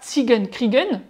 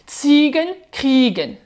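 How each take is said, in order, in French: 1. L'accent tombe sur la dernière syllabe. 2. L'accent tombe sur la première syllabe. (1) "avec le E N accentué" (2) "on accentue la première syllabe"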